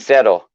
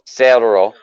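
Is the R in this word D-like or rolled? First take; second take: D-like; rolled. First: The R sounds more like a D. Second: The R is a rolled trill. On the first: "It sounds a lot more like C E D D O" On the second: "where they're rolling the cerro"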